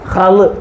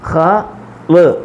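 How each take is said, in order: First: The two sounds are joined and said quickly. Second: The two sounds are said slowly and separately. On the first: "ചേർത്ത് സ്പീഡിൽ പറയണം" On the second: "ആദ്യം പറഞ്ഞ പറച്ചിലല്ല പിന്നീട്"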